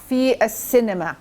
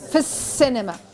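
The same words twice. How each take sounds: First: The two words are kept fully separate. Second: The two words are run together smoothly. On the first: The speaker calls it wrong. "Your language would sound a little bit stilted" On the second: The speaker calls it right. "but we say it في السينما"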